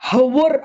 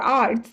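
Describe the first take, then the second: First: The word begins with an h sound. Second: The word begins directly with a vowel. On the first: The speaker calls it wrong. "हवर असं नाही म्हणायचं" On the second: The speaker calls it right. "इथे एच silent आहे"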